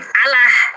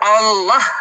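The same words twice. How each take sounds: First: The double L sounds light and thin. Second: The double L sounds heavy and dark. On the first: The speaker calls it wrong. "bukan Allah" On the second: The speaker calls it right. "sesuai dengan tarkik atau tafkhimnya, kaidah Arabnya"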